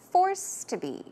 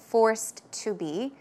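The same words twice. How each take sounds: First: The words flow together, with the -ed sound dropped. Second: The words are separate, with the -ed sound heard. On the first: The speaker calls it right. "try to say forced to be ... So you will not hear the ed there" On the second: The speaker calls it wrong. "Instead of forced to be"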